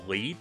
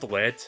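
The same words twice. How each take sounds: First: The word rhymes with seed. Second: The word rhymes with bed. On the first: The speaker calls it wrong. "I've heard some people pronounce that as Bubble Lead" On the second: The speaker calls it right. "I think it's pronounced lead, as in, like, you know, bullet lead"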